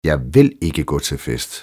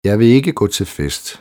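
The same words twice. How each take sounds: First: The stress falls on the word vil. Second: No word is singled out for stress. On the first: The speaker firmly refuses to be persuaded. "Du får mig aldrig afsted" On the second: It is a neutral statement of fact. "Neutralt konstaterende"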